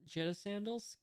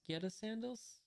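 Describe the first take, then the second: First: "Jetta" starting like "jet", rising at the end; soft-g pronunciation. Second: "Geta" starting like "get", rising at the end; hard-g pronunciation. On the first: Unsure reader trying out a sandal name, "Jetta" with a J. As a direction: say "Jetta" with a J sound, questioning. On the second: Unsure reader trying out a sandal name, "Geta" with a hard G. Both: Shown as a demonstration. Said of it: "I don't know how to pronounce that".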